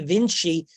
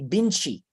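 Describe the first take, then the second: First: The name begins with a V sound. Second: The name begins with a B sound. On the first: "in English, we use the sound V" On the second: "they would say Binchi"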